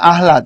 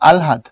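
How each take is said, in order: First: The h sound comes before the l. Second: The l sound comes before the h. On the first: The speaker calls it wrong. "না আহলাদ না" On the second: The speaker calls it right. "উচ্চারণটা হলো আগে ল, তারপরে হ"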